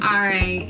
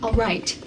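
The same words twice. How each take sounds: First: The T sound is soft and barely heard. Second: The T sound is crisp and clearly released. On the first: "instead of saying" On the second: "pronouncing the T's"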